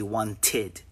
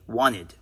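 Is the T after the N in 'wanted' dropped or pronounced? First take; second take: pronounced; dropped. First: The T after the N is clearly pronounced. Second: The T after the N is dropped. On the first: "Notice how I don't say wanted" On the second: "native English speakers say wanted. That T disappears"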